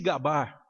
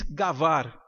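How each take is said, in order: First: The middle consonant is a b sound. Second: The middle consonant is a v sound. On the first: This is the common Portuguese form. "Você já deve ter ouvido a expressão se gabar" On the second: "Em algumas regiões de Minas se diz gavar, que é a pronúncia judaica"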